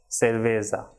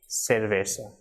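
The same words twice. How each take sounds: First: The last syllable has a buzzing z sound. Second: The last syllable has a soft s sound. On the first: The speaker calls it wrong. "it should not be" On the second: The speaker calls it right.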